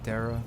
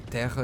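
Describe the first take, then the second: First: The word is said with English sounds. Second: The word is said with Portuguese sounds. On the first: "instead of Terra" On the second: "that's how you say Earth in Portuguese"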